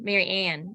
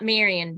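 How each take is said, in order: First: The stress is on the last syllable. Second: The stress is on the first syllable. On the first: The speaker calls it right. "I put the emphasis on Ann" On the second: The speaker calls it wrong. "not Marion"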